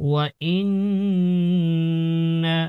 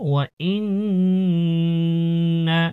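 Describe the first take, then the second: Both takes have the same delivery.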